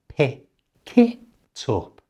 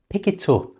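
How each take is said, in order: First: The linked phrase is said slowly. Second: The linked phrase is said at normal speed. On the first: "so slowly this sounds like" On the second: "and at normal speed"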